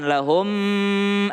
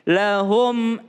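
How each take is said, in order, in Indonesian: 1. M di akhir kata dibaca dengan dengung. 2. M di akhir dibaca pendek dan jelas, tanpa dengung. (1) "Jangan lahum ah" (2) "Ini juga tidak boleh berdengung. Jelas dia"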